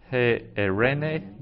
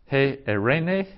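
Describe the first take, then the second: First: "he erene" slower repeat, long "he". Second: "He erene" slow with rise on "erene"; Greek word said slowly. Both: Shown as a demonstration. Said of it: "Some vocabulary".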